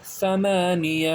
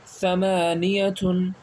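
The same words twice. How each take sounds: First: ثمانیہ said slowly, ending on a still ہ; stop form. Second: ثمانیتن said very slowly with the full تن ending; full reading. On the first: Teacher showing the pausal form slowly. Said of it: "رکنے پر ثمانیہ". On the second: Teacher reading the word slowly in full for students. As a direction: draw out ثمانیتن syllable by syllable. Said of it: "رکنے پر کیا پڑھیں گے". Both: Shown as a demonstration.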